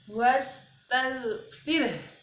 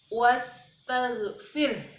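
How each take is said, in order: First: The word stops on the final r. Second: The same.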